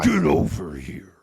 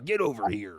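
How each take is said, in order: First: It is said in the game's Scorpion voice. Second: It is said in a Bubba-like voice.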